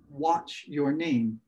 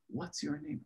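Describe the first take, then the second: First: The first word ends with a 'ch' sound. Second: The first word ends with a 'ts' sound. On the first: It sounds like a question about a wristwatch. The speaker calls it wrong. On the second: It is clearly a question asking for a name. The speaker calls it right.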